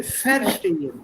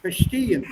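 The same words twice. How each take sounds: First: "verstehen" with stress on ver; wrong stress. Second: "Verstehen" stressed on steh. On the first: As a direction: show the error. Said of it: "Don't, don't say verstehen". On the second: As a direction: model the right stress. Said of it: "That's wrong". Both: Shown as a demonstration.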